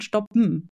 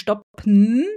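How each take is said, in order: First: The ending is reduced to a nasal m. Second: The ending is a clear vowel plus n. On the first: "sondern stoppen. Landest also auf dem M" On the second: "Also du sprichst nicht stoppen"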